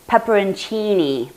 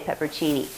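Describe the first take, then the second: First: The word is said with five syllables, including 'on'. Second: The word is said with four syllables, without 'on'. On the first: This is the original Italian form of the word. "The Italian word last night was pepperoncini" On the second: This is the speaker's own habitual form. "but I'll say peppercini"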